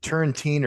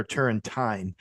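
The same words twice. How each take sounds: First: Put-on Turrentine ending like "teen". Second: Turrentine ending like "tine" of a fork; -tyne ending. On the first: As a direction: say Turrentine with a long ee in the last syllable. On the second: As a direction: say Turrentine to rhyme its last syllable with "nine". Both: Shown as a demonstration. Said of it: "is it Turrentine or Turrentine".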